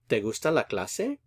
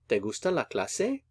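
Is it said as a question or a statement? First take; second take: question; question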